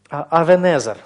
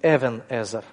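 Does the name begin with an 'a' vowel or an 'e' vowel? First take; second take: a; e. First: The first vowel is an 'a' sound. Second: The first vowel is an 'e' sound. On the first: This form came into Russian through the Greek translation. "в русский язык это вошло через септуагинту" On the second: This is the form in the traditional Hebrew reading. "более точно вот в масоретском произношении это будет Эвенезер"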